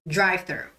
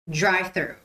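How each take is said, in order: Both takes have the same delivery.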